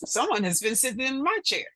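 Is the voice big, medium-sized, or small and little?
medium-sized. It is said in a medium-sized voice. "in her middle-sized voice"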